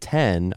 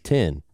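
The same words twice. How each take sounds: First: The vowel sounds like the one in 'bet'. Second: The vowel sounds like the one in 'bit'. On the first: "I wasn't saying 10" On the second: "I was saying 10. you have a Southern accent"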